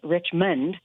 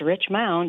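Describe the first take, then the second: First: The second syllable sounds like 'mund'. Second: The second syllable sounds like 'mound'. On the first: The name is read as the common spelling. The speaker calls it wrong. "people would read the, the, the name and, and call it Richmond" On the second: The name contains an extra letter. The speaker calls it right. "it actually has a U in it, and it's Richmond"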